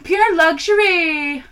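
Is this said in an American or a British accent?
British. It is said in an attempted British accent.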